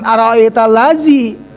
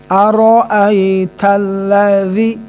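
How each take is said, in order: First: The consonant is a plain 'z' sound. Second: The consonant is a soft 'dh' sound. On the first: The speaker calls it wrong. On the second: The speaker calls it right.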